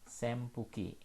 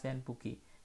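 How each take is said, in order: First: The nasal before the p sounds like m. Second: The nasal before the p sounds like n. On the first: The speaker calls it right. "ketika huruf N ketemu dengan huruf P itu akan dibaca M" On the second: The speaker calls it wrong. "jangan dibaca senpuki"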